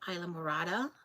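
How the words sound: It is said with an English pronunciation.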